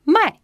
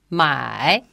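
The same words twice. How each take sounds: First: "mai" high and falling sharply; short, loud falling "mai"; fourth tone. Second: "mai" dipping low, then rising; dipping Mandarin "mai"; third tone. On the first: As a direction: drop "mai" abruptly from the top. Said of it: "has got the fourth tone". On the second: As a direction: drop "mai" low and swing it back up. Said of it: "the third tone". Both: Shown as a demonstration.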